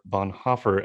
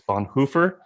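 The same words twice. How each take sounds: First: The second part has a short 'o' vowel. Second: The second part has a long 'oo' vowel. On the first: This is how most people say it. "as the rest of the world has said it to me" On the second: This is how one particular person says it. "as Michael pronounces"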